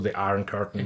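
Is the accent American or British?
American. It is said with an American accent. The speaker calls it wrong. "Han snakket ikke amerikansk, så The Iron Curtain var helt feil uttale der"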